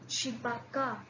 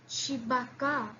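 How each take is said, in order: Both takes have the same delivery.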